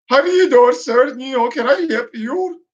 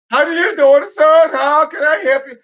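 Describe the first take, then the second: First: Mocking Indian accent, a touch garbled; mock underwater-sounding Indian accent. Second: Higher, louder mock Indian accent, pushed harder. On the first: Mocking a clerk who speaks like he's underwater, Indian accent. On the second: The clerk repeating himself to the confused customer, mock Indian accent. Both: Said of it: "how they speak, like they're underwater".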